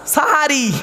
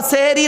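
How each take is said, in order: First: "সাহারি" drawn out with open a vowels; correct long a. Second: "সেহেরি" with e in the first syllables; mistaken e vowels. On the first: Preacher correcting the congregation, open a vowels. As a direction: give "সাহারি" open a sounds, sahari. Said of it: "ওটা দন্তেশয় একার নয়". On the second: Preacher telling listeners the wrong word, mistaken e vowels. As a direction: say "সেহেরি" as seheri. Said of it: "সেহেরি নয় শব্দটা". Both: Shown as a demonstration.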